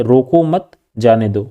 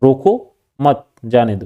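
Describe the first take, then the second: First: "रोको मत" together, then a break before "जाने दो"; group रोको with मत, pause, then say जाने दो; pause after मत. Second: "रोको" set apart, then "मत जाने दो"; pause after रोको. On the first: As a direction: break the phrase right after मत. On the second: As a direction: lift रोको and break before मत. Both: Shown as a demonstration. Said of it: "दोनों शब्द की अलग अलग अर्थ".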